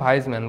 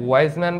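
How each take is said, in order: First: The name begins with a v sound. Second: The name begins with a w sound. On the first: "এখানে আসলে দুই রকমই উচ্চারণ হয়" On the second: "এখানে আসলে দুই রকমই উচ্চারণ হয়"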